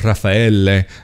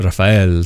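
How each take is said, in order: First: The name is said the Italian way. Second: The name is said the Latin American way. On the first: This is how people in Italy say the name. "here in Italy, you'll see more Raffaele" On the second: This is how the speaker's own name is meant to be said. "Latin American way of spelling and even pronouncing it"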